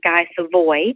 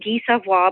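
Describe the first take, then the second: First: The name is pronounced the English way. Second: The name is pronounced the French way.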